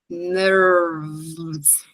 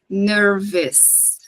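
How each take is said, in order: First: No vowel is sounded before the final s. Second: An extra vowel is sounded before the final s. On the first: The speaker calls it right. "Esse E, ele também não vai ser pronunciado" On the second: The speaker calls it wrong. "não falem nervous"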